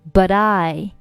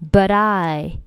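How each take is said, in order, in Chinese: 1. but 的 t 连读到 I 里。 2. but 的 t 连读到 I 里。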